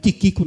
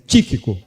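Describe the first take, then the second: First: The stress is on the second syllable. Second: The stress is on the first syllable. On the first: The speaker calls it wrong. "não é Tiquico não" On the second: The speaker calls it right. "É Tíquico"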